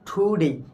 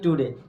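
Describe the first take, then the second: First: The first t has a puff of air. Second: The first t has no puff of air. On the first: The speaker calls it right. "টি সাউন্ডটা কার মতো হয়, ঠর মতো হয়" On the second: The speaker calls it wrong. "কি উচ্চারণ করি টুডে"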